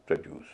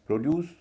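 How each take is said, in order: First: produce said prə-DUCE, with a reduced first vowel; prə-DUCE, light first syllable; stress on second syllable. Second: produce said PRO-duce, first syllable strong; PRO-duce with a rising first syllable; stress on first syllable. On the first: Teacher contrasts noun and verb, verb second. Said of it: "verb के रूप में". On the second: Teacher contrasts noun and verb, noun first. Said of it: "उसको produce कहेंगे". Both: Shown as a demonstration.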